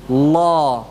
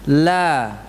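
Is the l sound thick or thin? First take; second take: thick; thin. First: The l is dark, with the tongue back raised. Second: The l is light, with the tongue back lowered. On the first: "Lam tebal gimana?" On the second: "Kalau lam tipis gimana?"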